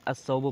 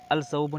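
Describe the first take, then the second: First: अस्सौबु with the lam dropped and a doubled s, as-saubu; correct sun-letter reading. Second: अल सौबु with the lam clearly spoken, al-saubu; deliberately wrong al-saubu, lam pronounced; wrong lam reading. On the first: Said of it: "अस्सौबु पढ़ते हैं". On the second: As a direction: say अल सौबु sounding the L before the s. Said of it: "अल सौबु नहीं पढ़ते हैं". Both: Shown as a demonstration.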